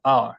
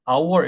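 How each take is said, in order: First: Our squeezed into one 'ar'; reduced diphthong. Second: Our split as a-wo; two-syllable mispronunciation. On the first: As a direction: say 'our' as one open syllable like 'ar'. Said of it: "이렇게 되지 않고 our". (our를 '아r' 한 음절로) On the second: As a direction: say 'our' in two separate syllables. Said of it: "our 이렇게 되지 않고". (our를 '아-워'처럼 두 음절로) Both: Shown as a demonstration.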